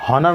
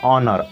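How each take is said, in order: First: The word starts with an audible h sound. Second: The word starts directly with a vowel sound. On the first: The speaker calls it wrong. "इसको पढ़ेंगे हॉनर नहीं पढ़ेंगे" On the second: The speaker calls it right. "इसको पढ़ेंगे ऑनर"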